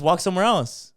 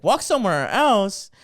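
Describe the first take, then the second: First: Raised-pitch suggestion to back off; retold retort. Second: Slow, higher, louder incredulous repeat; mock outraged echo. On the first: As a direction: tell her off, lightly acted. Acted retort to the complaining lady. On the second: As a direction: throw the words back, imitating indignation. Lady throws the retort back, outraged.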